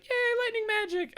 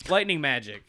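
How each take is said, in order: First: Very high, gleeful squeal; mock delight. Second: Said in the usual way. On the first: Girl learning her new power, mock delight. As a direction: cheer like a thrilled girl.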